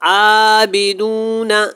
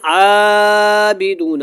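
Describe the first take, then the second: First: The first vowel is stretched to moderate length. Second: The first vowel is stretched out very long. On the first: The speaker calls it right. "एक अलिफ के बराबर आप इसको कम अज़ कम लाजमी खींचें" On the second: The speaker calls it wrong. "कुछ लोग तो बहुत लंबा कर देते हैं"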